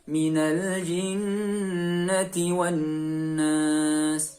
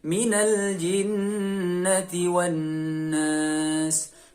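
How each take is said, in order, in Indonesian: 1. Dengungnya ditahan dengan panjang yang sedang. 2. Dengungnya ditahan dengan panjang yang sedang.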